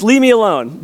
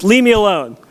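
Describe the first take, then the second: First: Higher, lightly hammed toddler shout; mock child yell. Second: A light imitation of a toddler yelling, a bit higher; mock child yell. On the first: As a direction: imitate the little girl shooing dad away. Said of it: "she says". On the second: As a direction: play the grumpy little girl, lightly. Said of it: "she yells at me".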